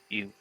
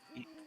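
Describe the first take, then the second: First: The voice is pitched very low. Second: The voice is pitched higher, in character. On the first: The speaker calls it wrong. "Carver doesn't talk all the way down here" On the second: The speaker calls it right. "let me get back into character voice"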